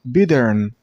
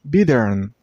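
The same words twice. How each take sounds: Both takes have the same delivery.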